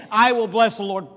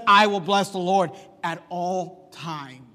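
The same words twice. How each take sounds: First: Said in the usual way. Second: "at all times" drawn out slowly and leaned on; slow, weighted "I will bless the Lord at all times"; stress on at all times. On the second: Shown as a demonstration. Preacher to congregation, contrasting David's words, slowly stressing "at all times". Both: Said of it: "But he doesn't just say".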